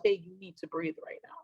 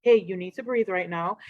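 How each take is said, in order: First: Much softer, low inward reminder to self; gentle soft note to self to breathe; quiet self-reminder. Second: Said in the usual way. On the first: Retold or imitated. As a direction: say it under your breath to yourself. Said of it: "I remind myself". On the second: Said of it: "that reminder from the other person".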